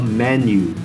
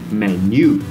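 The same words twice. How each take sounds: First: The stress is on the first syllable. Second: The stress is on the second syllable. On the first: The speaker calls it right. "The stress is on the first part of the word" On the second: The speaker calls it wrong. "We don't say menu"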